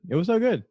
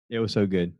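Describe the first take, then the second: First: High, bursting emphasis; excited. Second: Said in the usual way. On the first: Real, not acted. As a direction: say it again with real delight. Repeats the line with more excitement.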